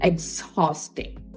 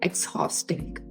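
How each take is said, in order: First: It begins with an 'eks' sound then 'haw'. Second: The same.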